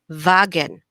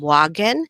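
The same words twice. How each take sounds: First: The word begins with a V sound. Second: The word begins with a W sound. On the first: This is the German pronunciation. "W is pronounced like a V ... we say Wagen" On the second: This is the English pronunciation. "instead of saying Wagen"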